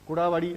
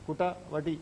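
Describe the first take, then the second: First: The words are run together casually. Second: The words are said carefully and distinctly. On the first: This is how people usually say it in speech. The speaker calls it wrong. "എന്നൊക്കെ നമ്മൾ പറയും" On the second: This is the proper pronunciation. The speaker calls it right. "ഉച്ചാരണം കുട്ട വടി എന്ന് പറയണമെന്നാണ്"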